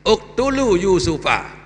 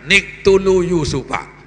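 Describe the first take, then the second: First: The first word begins with a vowel. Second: The first word begins with an n sound. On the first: The verse is read starting fresh after a stop. The speaker calls it right. "Jadi uktulu yusufa" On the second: The verse is read as linked to the previous one. The speaker calls it wrong. "Janganlah dibaca niktulu yusufa. Itu kan salah"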